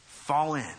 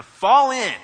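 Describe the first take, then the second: First: Said in the usual way. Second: Loud drill-sergeant call, drawn out; shouted command. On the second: Acted. Preacher voicing a command to troops, shouted. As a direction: bellow the order to the troops. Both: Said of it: "is shouted".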